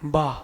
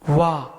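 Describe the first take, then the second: First: It starts with a b sound, lips closed. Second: It starts with a v sound, lips rounded. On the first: The speaker calls it wrong. "जब बा बोलोगे तो ओंठ जुड़ते हैं" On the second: The speaker calls it right. "वाह बोलोगे तो ओंठ गोल होंगे"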